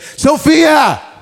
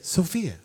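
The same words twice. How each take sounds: First: The name is yelled loudly. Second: The name is said at normal volume. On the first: The person called is far away. The speaker calls it wrong. "I don't always have to yell. You only yell at something you're far away from. ... I wouldn't say" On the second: The person called is standing close by. The speaker calls it right. "I'd say"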